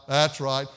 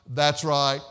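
No difference in how they are said.

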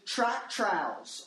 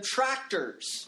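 First: The word is said as 'tractowels'. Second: The word is said as standard 'tractors'. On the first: This is how a little child says it. The speaker calls it wrong. "I've been saying it wrong this entire time as well" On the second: This is how most people say it. The speaker calls it right. "as you might refer to them"

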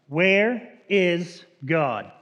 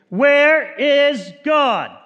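First: It is asked in a stern voice. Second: It is asked in a loud, raised voice.

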